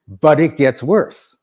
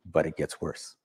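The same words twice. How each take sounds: First: "But it gets worse" drawn out slow and louder, rising on "But"; emphatic warning. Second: Dropped to a soft, ominous near-murmur; quiet warning. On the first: Speaker building to the audience, slow emphatic warning. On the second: Speaker teasing the audience, dropped soft. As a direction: let "but it gets worse" sink low and quiet. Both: Shown as a demonstration.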